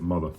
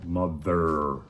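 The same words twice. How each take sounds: First: It is said in a standard neutral accent. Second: It is said in a local regional accent. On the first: The speaker calls it right. "I'll pronounce it right" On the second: The speaker calls it wrong. "that's how I say it up here"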